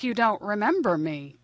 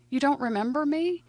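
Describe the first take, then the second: First: Said in the usual way. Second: "remember me" higher, rising into a question; disbelieving question. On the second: Retold or imitated. Old girlfriend asks forgetful man, disbelieving rising "me". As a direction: ask it high, with "me" lifting at the end.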